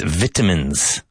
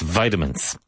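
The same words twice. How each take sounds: First: It is said with a British or Irish pronunciation. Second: It is said with an American pronunciation. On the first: "In Ireland and Britain, it's vitamins" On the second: "In the United States, that's vitamins"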